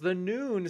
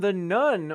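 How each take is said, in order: First: The name is said like 'noon'. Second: The name is said like 'nun'. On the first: The speaker calls it right. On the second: The speaker calls it wrong.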